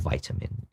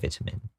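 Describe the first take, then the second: First: The word has an American pronunciation. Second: The word has a non-American pronunciation.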